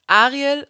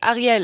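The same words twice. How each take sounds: First: Ariel stressed on the first syllable; contrasting stress. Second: Ariel stressed on the last syllable; contrasting stress. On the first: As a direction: put the weight on the A of Ariel. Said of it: "aber die Betonung". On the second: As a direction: put the weight on the end, Ariel as a-ri-ELL. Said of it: "diese Betonung woanders". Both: Shown as a demonstration.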